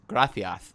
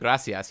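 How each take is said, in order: First: The c is said with a Castilian lisp. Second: The c is said as a plain s sound.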